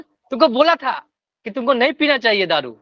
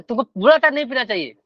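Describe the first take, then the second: First: Raised, reproachful told-you-so; scolding. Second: Faster, higher told-you-so rebuke; quick scolding. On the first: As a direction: scold like a nagging inner voice. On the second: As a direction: rattle off the reproach. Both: Retold or imitated. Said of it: "अभी वही डांट रहा है मन".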